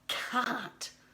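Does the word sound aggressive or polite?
aggressive. The word is said forcefully with heavy emphasis. The speaker is being negative and harsh. The speaker calls it wrong. "such emphasis of can't. Isn't that so horrible?"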